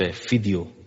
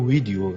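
First: The word begins with an f sound. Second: The word begins with a v sound. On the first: This is how Arabic speakers say it. The speaker calls it wrong. "برای ویو میگن ف" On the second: This is how the speaker says it. The speaker calls it right. "من بودم میگم ویدیو"

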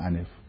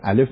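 First: The word is said with an N sound. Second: The word is said with an L sound. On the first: The speaker calls it wrong. "میگفت انف" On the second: The speaker calls it right. "به جای الف"

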